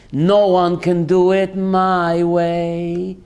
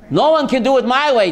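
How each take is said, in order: First: Drawn-out, lower, savoring each word; slow proud declaration. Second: Fast, slightly louder; quick proud repeat. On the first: Rabbi urges the congregation, slow and proud. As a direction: stretch it out like a boast. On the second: Rabbi repeats the boast to David, fast and bright. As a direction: rattle it off confidently. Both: Acted.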